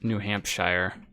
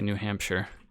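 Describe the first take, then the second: First: The ending is a full 'shire' sound. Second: The ending is a reduced 'sher' sound. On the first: The speaker calls it wrong. "you won't say New Hampshire" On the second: The speaker calls it right. "You'll say New Hampshire"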